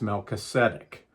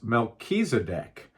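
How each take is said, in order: First: The name is said with its Hebrew pronunciation. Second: The name is said with its Greek pronunciation. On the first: "the Hebrew pronunciation is" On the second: "The Greek pronunciation is"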